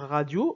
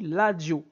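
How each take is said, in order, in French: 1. Le mot commence par un son R. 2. Le mot commence par un son L. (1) "au lieu de dire radio" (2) "en Lingala, on dit ladio"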